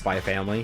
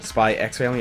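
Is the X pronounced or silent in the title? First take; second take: silent; pronounced. First: The X in the middle is left silent. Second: The X in the middle is pronounced aloud. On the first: The speaker calls it right. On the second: The speaker calls it wrong.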